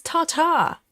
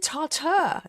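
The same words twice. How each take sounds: First: Tartar with a full open 'tah' ending; own pronunciation. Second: Tartar ending in a short 'ter'; TAR-ter for tartar, high and questioning; viewer's pronunciation. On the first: Shown as a demonstration. Host correcting the viewer, own pronunciation of tartar as TAR-TAH. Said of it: "Why is it tartar?". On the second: Retold or imitated. Host querying the viewer's version, viewer's pronunciation of tartar as TAR-ter. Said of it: "We say tartar".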